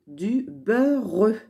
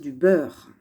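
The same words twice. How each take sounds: First: The words are said slowly, sound by sound. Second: The words are said quickly and smoothly. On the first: "C'est vrai qu'on a envie de dire du beurre" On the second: "quand on lit un peu plus vite"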